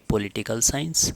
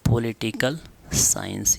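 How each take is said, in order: First: Said in the usual way. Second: political science drawn out slowly; slow dictation. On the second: Shown as a demonstration. Teacher dictates term for writing. (धीरे-धीरे लिखवाते हुए)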